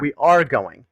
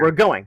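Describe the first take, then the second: First: We and are are said as separate words. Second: We are is contracted into one syllable. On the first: "the full word" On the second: "the damn abbreviations"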